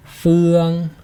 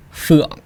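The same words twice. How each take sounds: First: "Phương" louder, held on a high, level pitch; long, unwavering "Phương" like a note; flat tone. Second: "phượng" short, dropping and cut off; brief "phượng" with an abrupt stop; dot tone. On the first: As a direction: sustain "Phương" evenly to the end. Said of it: "with the flat tone first". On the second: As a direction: punch "phượng" loud and shut the throat on it. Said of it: "and then the dot". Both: Shown as a demonstration.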